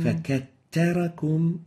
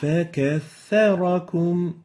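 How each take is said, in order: First: The doubled consonant is a t sound. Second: The doubled consonant is a th sound. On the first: The speaker calls it wrong. "So we're having ta instead of the tha" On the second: The speaker calls it right. "the right way of pronouncing it"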